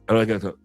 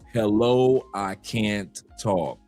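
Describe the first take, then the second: First: It is said quickly, rushed. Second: It is said slowly, drawn out.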